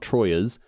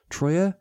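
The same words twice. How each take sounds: First: The word ends with an audible S sound. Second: The word ends without an S sound.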